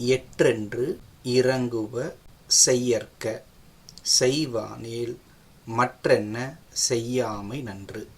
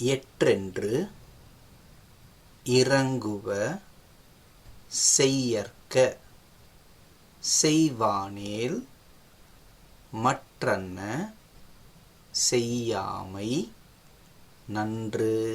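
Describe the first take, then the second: First: The verse is recited at a faster pace. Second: The verse is recited at a slower pace.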